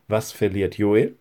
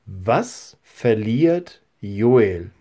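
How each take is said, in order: First: Said in the usual way. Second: Slow question. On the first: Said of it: "Kannst du dir das merken?". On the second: Shown as a demonstration. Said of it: "Die zweite Frage ist".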